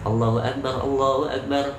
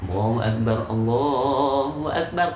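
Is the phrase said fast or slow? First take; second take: fast; slow. First: The phrase is said quickly. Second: The phrase is said slowly. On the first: It is the call that prayer is starting now. "Kalau iqomah itu kan cepat. ... itu cepat" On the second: It is the general call to prayer. "Kalau adzan lambat. ... pelan-pelan"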